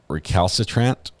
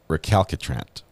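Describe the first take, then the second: First: The second C sounds like an S. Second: The second C sounds like a K. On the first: "pronounced like an S" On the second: "a hard C like a K"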